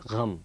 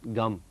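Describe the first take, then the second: First: It starts with a throaty, breathy g sound. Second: It starts with a plain hard g sound. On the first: The speaker calls it right. "it's gham" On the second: The speaker calls it wrong. "It's not gum"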